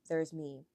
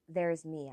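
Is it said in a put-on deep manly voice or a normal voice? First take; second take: manly voice; normal voice. First: It is said in a put-on deep manly voice. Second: It is said in the speaker's normal voice.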